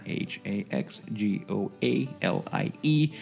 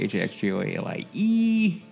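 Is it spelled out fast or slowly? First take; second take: slowly; fast. First: The letters are spelled out slowly. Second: The letters are spelled out fast.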